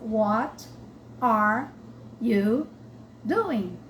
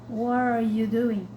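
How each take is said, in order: First: Each word is said separately and distinctly. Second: The words run together as one block. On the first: The speaker calls it wrong. "se a gente vê escrito, a gente pensa" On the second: The speaker calls it right. "Parece que é uma coisa só"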